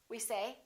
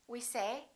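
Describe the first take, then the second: Both takes have the same delivery.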